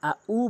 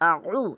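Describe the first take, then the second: First: The second syllable starts with a glottal catch. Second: The second syllable starts with a throat squeeze. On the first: The meaning changes. The speaker calls it wrong. "আইনের জায়গায় হামজা এনে উচ্চারণ করে" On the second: It means 'I seek refuge'. The speaker calls it right. "এভাবে বলবেন"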